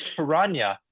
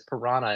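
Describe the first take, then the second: First: Piranha as "pih-RAHN-ya"; original pronunciation. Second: Piranha as "pih-RAH-nuh"; common mispronunciation. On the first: Citing an ichthyologist on the original word, piranha as "pih-RAHN-ya". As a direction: give piranha its Brazilian ny sound. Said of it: "the original Brazilian word for it". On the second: Explaining the official English translation, piranha as "pih-RAH-nuh". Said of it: "the widespread mispronunciation led to it". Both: Shown as a demonstration.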